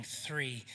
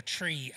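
First: Said in the usual way. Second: "tree" with a hard T in place of TH; "tree", Irish-style, no TH sound; Irish "tree" for three. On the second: Shown as a demonstration. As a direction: say "tree" the Irish way, starting on a plain T. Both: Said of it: "as I say in my Irish accent".

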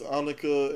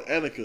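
First: Annika said AH-nuh-kuh with a broad open first vowel; Russian-sounding slip. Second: Annika said AN-uh-kuh with a flat a as in cat; corrected name. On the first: Host mispronouncing his daughter's name, Annika as AH-nuh-kuh. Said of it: "I don't know why I made her Russian". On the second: Host correcting his daughter's name, Annika as AN-uh-kuh. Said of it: "or sorry". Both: Real, not acted.

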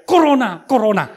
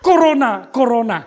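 First: Put-on children's taunting yell, loud; mocking shout. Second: Loud taunting yell, half laughing; mocking shout. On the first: Kids yelling at the pastor through the car window, mocking shout. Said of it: "langsung teriak". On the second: Pastor retelling kids yelling at him, mock taunting shout. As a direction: retell the kids' teasing shout. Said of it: "Dia teriak".

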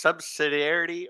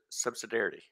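First: Subsidiarity offered carefully, higher, as sub-sid-ee-AIR-ity; subsidiarity, first pronunciation option. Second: Subsidiarity shortened to sub-suh-DAIR-ity; subsidiarity with the middle squeezed, as sub-suh-DAIR-ity; subsidiarity, second pronunciation option. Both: Shown as a demonstration. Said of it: "So is it pronounced".

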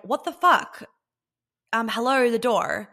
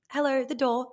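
First: Much higher and louder, indignant and bratty; entitled outrage. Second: Higher, light and teasing with a smile; cheeky smile. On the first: An entitled woman scolding her man over the door, indignant and loud. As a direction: demand the door like you're owed it. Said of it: "That would be entitlement". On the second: Reminding her man to hold the door, cheeky and playful. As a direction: tease him gently about the door. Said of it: "with a little bit of a cheeky smile". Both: Retold or imitated.

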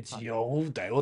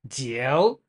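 First: ジオ mimicked as a Chinese speaker corrects it; imitated Chinese pronunciation. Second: ジオ said the mistaken Japanese way; ジオ as a Japanese speaker would say it; Japanese-style pronunciation. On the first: Quoting a Chinese speaker correcting him, imitated Chinese pronunciation. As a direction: give ジオ a Chinese-style pronunciation. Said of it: "中国人に言わせると". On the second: Shown as a demonstration. Explaining a Chinese beer name to his co-host, Japanese-style pronunciation. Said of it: "ちょっと違うっぽい".

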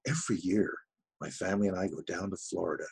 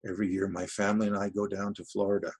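First: Understated enthusiastic read; acted enthusiasm. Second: Said in the usual way. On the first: Shown as a demonstration. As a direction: act it, but not too much. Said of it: "There's a, an enthusiasm there". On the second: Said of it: "you know, not too much".

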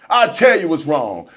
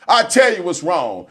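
The two takes are said the same way.

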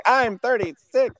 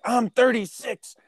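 First: High, slow and loud: I'm thirty-six; indignant exclamation. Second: Indignant exclamation. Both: Retold or imitated. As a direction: proudly call out your age while slamming down your ID. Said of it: "I was like".

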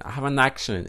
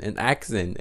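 First: "accent" said with a sh, like "action". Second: "accent" said with a clear ks, "ak-sent"; corrected "accent". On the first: Vlogger apologizing to viewers, "accent" coming out as "ak-shun". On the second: Vlogger correcting the slip, "accent" with an s sound. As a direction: fix "accent" to an s sound, softer. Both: Real, not acted.

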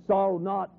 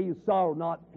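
First: "Sorrow not" held open, with a brief pause carrying on; comma pause. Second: "sorrow not" closed off with a falling, final stop; full stop. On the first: Preacher showing the true reading, "Sorrow not" left open at the comma. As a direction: keep "Sorrow not" hanging, as if more follows. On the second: Preacher showing the misreading, with "sorrow not" ending in a hard full stop. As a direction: end "sorrow not" as if the sentence ends there. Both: Shown as a demonstration.

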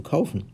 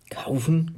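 First: Mildly triumphant KAUFEN in the narrator's usual range; understated glee on "kaufen"; jubilant. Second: Rough, incredulous KAUFEN rising high; growling. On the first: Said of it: "frohlockte sie". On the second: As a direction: growl "Kaufen" back as an indignant question. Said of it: "knurrte Grabsch". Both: A narrator's reading.

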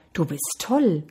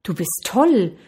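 First: Understated answering echo. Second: Mild storyteller's call. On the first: Mountains answer the boy's call, restrained echo. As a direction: hand it back as a fainter echo. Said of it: "Aus den Bergen hörte er". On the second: Boy shouts praise into the mountains, mild call. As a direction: call it out toward the mountains, lightly acted. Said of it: "rief der Junge". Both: A narrator's reading.

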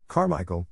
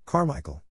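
First: Understated gasp of a name. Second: Higher-pitched cry, only slightly louder; mild loud cry. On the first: Invalid calling Carmichael as he recognizes the child, gasped. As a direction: call out with a mild invalid's gasp. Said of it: "the invalid gasped". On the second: Indian gentleman calling to Carmichael, mildly crying out. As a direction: call the name out, with restrained force. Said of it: "cried out loudly". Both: A narrator's reading.

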